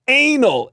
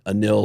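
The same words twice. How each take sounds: First: Anil said like "anal", long AY first. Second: Anil with stress on the second syllable; Anil as uh-NIL. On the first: Comedian milking the man's name, Anil said as AY-nul. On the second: Comedian conceding the man's own pronunciation, Anil said as uh-NIL. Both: Shown as a demonstration. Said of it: "I think he pronounced it Anil".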